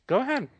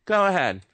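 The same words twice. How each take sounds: First: Airy taunting "Go ahead" pitched way up; high mocking "Go ahead". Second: "Go ahead" pushed out loud and high, a defiant dare; louder taunt. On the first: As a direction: dare them lightly, high and sing-song. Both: Real, not acted. Taunting the government.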